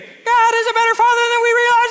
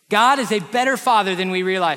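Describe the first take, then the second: First: It is said in a Kermit the Frog voice. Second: It is said in his normal voice.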